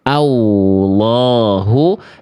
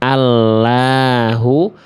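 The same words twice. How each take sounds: First: An extra w sound is added after the L. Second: The L sounds thin and light. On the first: "nambahin huruf waw sukun di situ jangan" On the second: "jangan sampai dibaca tipis lamnya"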